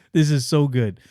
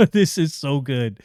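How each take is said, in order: First: Said in the usual way. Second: Chuckling through the words; laughing praise. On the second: Real, not acted. Reviewer to viewers, laughing with delight.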